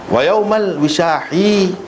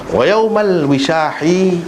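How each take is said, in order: No difference in how they are said.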